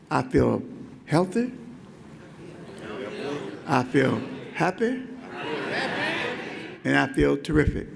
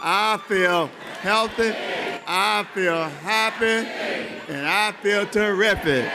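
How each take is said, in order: First: It is said at a normal volume. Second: It is said very loudly, with great energy.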